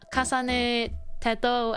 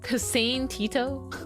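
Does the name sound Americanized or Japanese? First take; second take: Japanese; Americanized. First: The name is said with a Japanese vowel. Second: The name is said with an Americanized vowel. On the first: The speaker calls it right. "Teto would be more accurate to Japanese" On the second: The speaker calls it wrong. "This is like Americanizing it"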